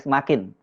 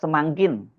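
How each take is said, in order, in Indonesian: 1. Tidak ada bunyi ng sebelum k. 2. Ada bunyi ng tambahan sebelum k. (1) "alih-alih semakin" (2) "Presiden Soeharto selalu menggunakan kata semangkin"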